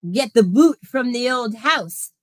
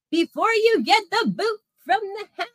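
First: Said in the usual way. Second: Much higher, teasing lilt; sing-song taunt. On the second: Acted. Streamer teasing the Bo Weevil about losing the house, sing-song taunt. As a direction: needle him in a singsong.

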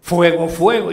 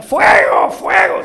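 First: Loud retold cry of alarm; raised voice, recalling a yell; retold shout. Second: Loud, high shouts of alarm; full-voiced, high cry of fire; screaming for help. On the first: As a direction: quote the shout, louder but less frantic. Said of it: "porque gritó". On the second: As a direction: shout as if trapped and calling for rescue. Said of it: "empieza a gritar".

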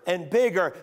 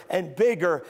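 Both takes have the same delivery.

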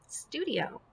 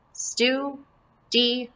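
First: Said in the usual way. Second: "Studio" as STU, DI, O, long gaps between; split into syllables. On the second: Shown as a demonstration. Teacher breaks up the word for pupils, "Studio" in separate syllables. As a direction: give each syllable of "Studio" its own beat. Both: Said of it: "this is going to be one syllable".

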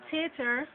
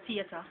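First: Said in the usual way. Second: "theater" as tee-ah-ta; Jamaican pronunciation. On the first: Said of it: "calling the words and then giving". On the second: Shown as a demonstration. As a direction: say "theater" with t for th and no final r. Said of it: "we would say".

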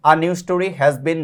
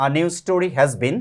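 The two takes are said the same way.

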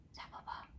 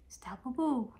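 First: Breathy whispered pet name; whispering. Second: Louder affectionate call. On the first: Calling pet's name softly, then loud. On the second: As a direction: call the pet's name fondly. Pet name called out loud. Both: Real, not acted.

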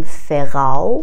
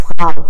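First: Second "فراو" split as "fe-rau"; "فراو" in two syllables, rising at the end; wrong inserted vowel. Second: First "فراو" with F and R stuck straight together; no vowel in cluster. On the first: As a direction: slip a short E between F and R in "فراو". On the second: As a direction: say "فراو" as one syllable, "frau". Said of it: "بینش هیچ حرف صداداری وجود نداره". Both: Shown as a demonstration.

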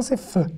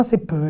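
First: C'est feu with a soft F; Hebrew fe sound. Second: C'est peu with a crisp P; Hebrew pe sound. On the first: Teacher demonstrating the undotted letter, soft F. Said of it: "quand il n'y a pas de point". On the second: Teacher demonstrating the dotted letter, crisp P. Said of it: "quand il y a un point". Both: Shown as a demonstration.

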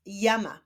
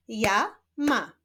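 First: Said in the usual way. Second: "Ja, ma" as two separate syllables, pause between. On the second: Shown as a demonstration. Teacher leading a reading drill, "Ja, ma" split apart. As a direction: sound out "Ja", stop, then "ma". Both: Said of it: "łączenia ich w wyrazy".

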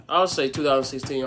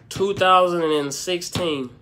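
First: Said in the usual way. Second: "two thousand and sixteen" said slowly and louder, each word weighed; slow, heavy "two thousand and sixteen"; slow deliberate answer. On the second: Shown as a demonstration. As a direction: draw out "two thousand and sixteen" like a final verdict.

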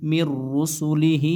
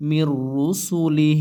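First: মির রুসুলিহি said slowly with the final হি voiced; slow মির রুসুলিহি ending on হি; full ending. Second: মির রুসুলি cut short with a silent final হ; slow মির রুসুলি, halting at লি; stopping at the end. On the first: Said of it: "আর যদি র-, অক্ফ করেন". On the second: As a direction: pause form মির রুসুলি without the হি. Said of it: "অক্ফ করেন". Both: Shown as a demonstration.

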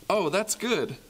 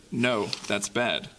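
First: Bright, higher hopeful "Oh, that's good"; cheerful. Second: Glum. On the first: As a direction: lift "good" up with delight. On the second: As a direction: drag "bad" down in mock dismay. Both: Acted. Call-and-response refrain.

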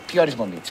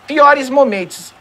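First: Said in the usual way. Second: "Piores momentos" drawn out slowly, raised and louder; mocking emphasis. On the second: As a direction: stretch out "Piores momentos" ironically. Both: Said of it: "Não dá pra chamar isso aí de piores momentos".

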